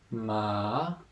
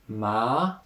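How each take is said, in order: First: The pitch dips down, then rises. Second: The pitch rises from middle to high. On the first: "the third tone, ma, down, up" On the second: "second tone"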